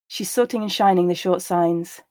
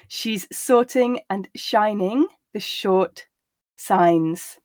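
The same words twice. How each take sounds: First: The sentence is said at a natural pace. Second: The sentence is said at a slow pace. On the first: "the second and third time at a more natural pace" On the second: "the first time slowly so that you can grasp the words"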